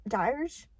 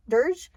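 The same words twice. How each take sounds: First: "dirge" said with a long i, like "dyerge"; "dirge" sounded tentatively with the vowel of "dire"; mispronounced word. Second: "dirge" with an er vowel, questioning rise; "dirge" corrected, pitched up like checking; corrected pronunciation. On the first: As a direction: misread "dirge" as "dyerge", questioning. Stumbles on word, then corrects it. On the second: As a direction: say "dirge" to rhyme with "merge". Corrects the misread word. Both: Real, not acted.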